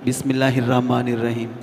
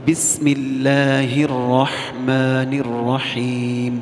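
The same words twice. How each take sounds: First: Quick recitation with letters swallowed; hasty swallowed letters. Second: Chanted slowly, every letter full; slow careful recitation. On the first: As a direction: rush it and eat the letters. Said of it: "حروف کو کھا جاتے ہیں اندر سے". (جلد بازی میں حروف کھا جانا) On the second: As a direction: sing each letter out fully. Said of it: "پورا پورا حرف ادا کرنا ہے". (آہستہ ترتیل سے، ہر حرف پورا) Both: Shown as a demonstration.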